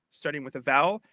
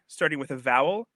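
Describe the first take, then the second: No difference in how they are said.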